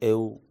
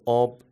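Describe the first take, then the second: First: The word is said in a rural accent. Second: The word is said in an urban accent. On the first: "یه روستایی هم میگه مثلا او" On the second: "شما شهری هستید میگید آب"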